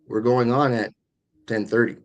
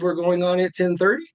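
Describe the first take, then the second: First: The voice falls at the end of the phrase. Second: The voice rises at the end of the phrase. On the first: The speaker talks down to the listener. "when you curve down, it can sound condescending" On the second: The speaker is unsure of the answer. "So that signals uncertainty"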